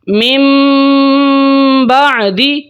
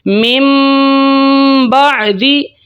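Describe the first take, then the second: First: A nasalized m sound comes before the b. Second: A nasalized m sound comes before the b.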